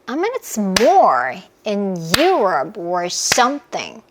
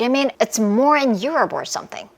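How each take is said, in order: First: It is said very slowly. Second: It is said very fast.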